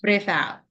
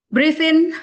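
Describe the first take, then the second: First: "Breathe out" with falling tune; "out" dropping to lead the exhale; exhale cue. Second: High, loud "Breathe in"; raised "in" to lead the inhale; inhale cue. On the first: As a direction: let "out" fall back to a relaxed level. Cueing the group's exhale. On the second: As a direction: pitch "in" up and louder. Cueing the group's inhale. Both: Shown as a demonstration.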